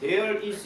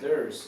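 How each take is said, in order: First: Both words are said fully and separately. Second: The words are shortened into one contracted syllable. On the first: The speaker calls it wrong. "there is 이렇게 얘기 안 하고" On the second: The speaker calls it right. "there's 이런 식으로 얘기를 많이 해요"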